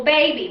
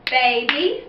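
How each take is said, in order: First: Said in the usual way. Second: Put-on baby split into ba-by, one clap each; two claps on baby; clapping syllables. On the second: Shown as a demonstration. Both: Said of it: "when we clap out baby".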